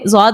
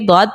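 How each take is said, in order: First: The letter name begins with a z sound. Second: The letter name begins with a d sound. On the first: The speaker calls it wrong. "ज़ौद नहीं" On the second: The speaker calls it right. "बल्कि दौद पढ़ना है"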